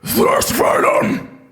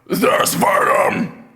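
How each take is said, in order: First: It is a scream with extra breath. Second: It is a plain scream without extra breath.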